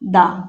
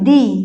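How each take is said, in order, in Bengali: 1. শব্দটি ছোট 'uh' স্বরধ্বনি দিয়ে শেষ হয়। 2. শব্দটি লম্বা 'ee' স্বরধ্বনি দিয়ে শেষ হয়। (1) "কনসোনেন্ট সাউন্ড এর আগে ... তখন বলবো দা" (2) "ভাওয়েল সাউন্ডের আগে ... উচ্চারণ হবে দি"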